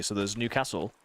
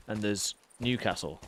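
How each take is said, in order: First: "Newcastle" with a short flat a, ny sound kept; "Newcastle" said the speaker's usual way. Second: "Newcastle" with the ny glide dropped, Geordie-style; "Newcastle" in a light Geordie accent. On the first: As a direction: say "Newcastle" the way you do day to day. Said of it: "I will say Newcastle, but I don't say it properly". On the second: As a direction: give "Newcastle" a broad Geordie sound. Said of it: "there's a way of saying it". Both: Shown as a demonstration.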